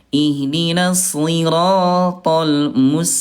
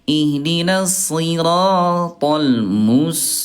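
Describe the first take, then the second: First: First s is heavy, second s light. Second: Both s sounds are heavy and emphatic. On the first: The speaker calls it right. "huruf sad dulu baru ke sin ya" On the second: The speaker calls it wrong. "yang kedua tadi dua-duanya sad"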